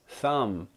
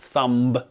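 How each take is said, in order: First: No b sound is pronounced at the end. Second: A b sound is pronounced at the end. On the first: The speaker calls it right. "it's thumb" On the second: The speaker calls it wrong. "It's not thumb"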